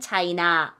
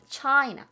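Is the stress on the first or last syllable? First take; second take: last; first. First: The stress is on the last syllable. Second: The stress is on the first syllable. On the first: "우리는 China 이렇게 발음하고요" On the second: "미국 사람들은 영어에서는 되게 앞에"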